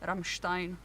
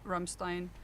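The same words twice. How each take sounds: First: The name is said with a German pronunciation. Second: The name is said with an English pronunciation. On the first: The speaker calls it right. "I should say Rammstein" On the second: The speaker calls it wrong. "we're not doing the English pronunciation here"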